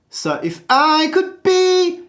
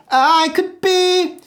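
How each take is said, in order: First: High sung could be, weight on be; stress on be. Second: Be sung high and held, could thrown away; stress on be. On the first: Coach showing where to place the stress. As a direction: lean into be, not could. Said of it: "if you aim for the word could, you're gonna choke". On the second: Coach aiming the high note at the word be. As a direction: aim the note at be. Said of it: "aim for the word be". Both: Shown as a demonstration.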